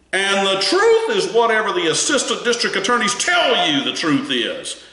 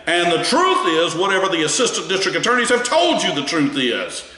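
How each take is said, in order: First: High, pressing emphasis on "truth", with "truth" stressed and falling; emphatic retold quote. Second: Lifted, insistent reading that leans on "truth" each time; emphatic retold quote. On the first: Attorney pressing the witness on the stand, imitated emphatic stress on "truth". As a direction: imitate the attorney hammering the point home. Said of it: "And his voice inflection was pretty strong".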